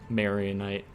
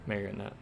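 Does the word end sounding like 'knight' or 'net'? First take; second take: knight; net. First: The word ends with a sound like 'knight'. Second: The word ends with a sound like 'net'. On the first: The speaker calls it wrong. "the way you said Mario Knight" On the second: The speaker calls it right. "There we go"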